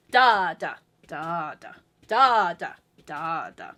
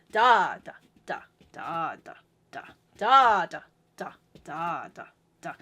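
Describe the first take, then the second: First: Strong "da", weak, medium, weak "da"; dancey "da" pairs, biggest on one; four-four accents. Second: Dancey "da" triplets, biggest on one; six-eight accents. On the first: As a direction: chant DA-da-Da-da, weak ones low. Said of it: "whereas the four four is". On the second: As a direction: chant DA-da-da Da-da-da. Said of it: "Six eight is". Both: Shown as a demonstration.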